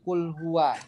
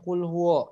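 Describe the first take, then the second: First: The second word ends in an open a vowel. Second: The second word ends in a rounded o vowel. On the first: The speaker calls it right. "tapi kul huwa" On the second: The speaker calls it wrong. "Jangan kul huwo ya"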